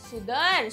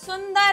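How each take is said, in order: First: It is said with no nasal before 'd'. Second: It is said with a nasal before 'd'. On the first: The speaker calls it wrong. "सुदर नहीं होता" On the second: The speaker calls it right. "स के ऊपर अंग की मात्रा"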